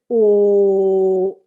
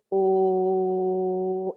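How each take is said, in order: First: The vowel is said louder and more projected. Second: The vowel is said at a softer volume.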